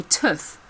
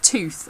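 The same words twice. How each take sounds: First: Tooth with the short "oo" of foot; clipped "oo" in tooth, as in book; short vowel. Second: Tooth with the long "oo" of food; long vowel in tooth, as in boot. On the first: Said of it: "but I say tooth". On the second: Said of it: "Instead of tooth". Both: Shown as a demonstration.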